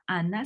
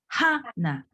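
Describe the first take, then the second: First: The name starts directly with the vowel. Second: The name starts with a breathy h sound. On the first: The speaker calls it wrong. "mais c'est pas Anna" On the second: The speaker calls it right. "c'est Hannah"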